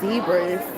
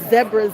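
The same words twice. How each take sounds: First: It is said in the speaker's usual pronunciation. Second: It is said with an Australian pronunciation.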